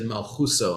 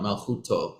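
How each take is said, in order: First: The last syllable begins with an s sound. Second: The last syllable begins with a t sound. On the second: This is the modern Israeli reading of Hebrew. "not Malchuto ... the modern Israeli version"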